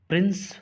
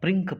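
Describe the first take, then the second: First: The word ends with an s sound. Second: The word ends with a k sound. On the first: The speaker calls it right. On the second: The speaker calls it wrong.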